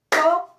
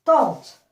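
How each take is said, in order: First: "Tante" split tan, te with a long pause; high, loud "tan", then short "te" of "Tante"; syllable by syllable. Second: Said in the usual way. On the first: Shown as a demonstration. Teacher breaking tante up for counting, syllable by syllable. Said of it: "Combien de syllabes". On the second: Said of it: "nous avons".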